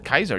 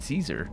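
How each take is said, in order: First: The name begins with a hard K sound. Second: The name begins with a soft S sound. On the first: "he doesn't pronounce it uh, Kaiser" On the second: "He pronounces it Caesar"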